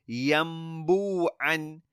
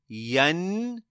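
First: An m sound comes before the b. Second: An n sound comes before the b. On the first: The speaker calls it right. "Turn it into a meme" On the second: The speaker calls it wrong. "We don't say yanbu'an. No"

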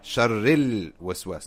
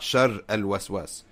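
First: The words run together with no separate article. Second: The article is said as a separate syllable. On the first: The speaker calls it right. "Sharril waswas, not shar al waswas" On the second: The speaker calls it wrong. "not shar al waswas"

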